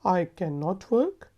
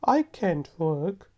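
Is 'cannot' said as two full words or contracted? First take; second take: full; contracted. First: Can and not are said as two full words. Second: Can and not merge into one contracted word.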